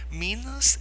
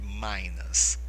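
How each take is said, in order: First: The first vowel sounds like 'ee'. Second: The first vowel sounds like 'eye'. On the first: It follows Portuguese sound rules. "é a forma como nós é, o, vamos falar seguindo as nossas regras fonéticas" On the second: It follows English sound rules. "Se eles seguirem a deles, eles vão dizer Minas"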